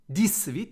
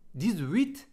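First: The x is sounded as an s. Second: The x is sounded as a z. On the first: The speaker calls it wrong. "دیگه نمیگم دیس ویت" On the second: The speaker calls it right. "دیگه میگم دیز، صدای ز میده"

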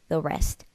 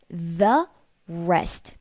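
First: The word 'the' is said weakly and briefly. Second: The word 'the' is said fully and clearly. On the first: The speaker calls it right. "하면서 굉장히 약하게 뭔가 살짝만 걸리는 느낌으로" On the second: The speaker calls it wrong. "완전하게 the rest 이렇게 안 나올 거예요"

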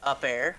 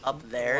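First: The 'th' sound is dropped, like 'up air'. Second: The 'th' sound is clearly pronounced. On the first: "They say up air" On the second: "Instead of up there"

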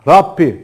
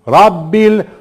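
First: The middle consonant is a voiceless P sound. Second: The middle consonant is a voiced B sound. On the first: The speaker calls it wrong. "bunu P şeklinde okuyanlar var" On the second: The speaker calls it right. "B'yi ne yapıyorsun? Direkt alemin kelimesinin lamına bağlıyorsun"

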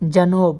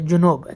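First: The first vowel sounds like 'a'. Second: The first vowel sounds like 'u'. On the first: The speaker calls it right. "এখানে জুনুব হবে না, এটা হবে জানুব" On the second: The speaker calls it wrong. "এখানে আবার আজনবীরা ভুল করে, তারা বলে জুনুব"

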